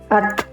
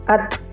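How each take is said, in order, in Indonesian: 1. Huruf t akhir ada desis angin yang sedikit. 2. Huruf t akhir ada desis angin yang sedikit.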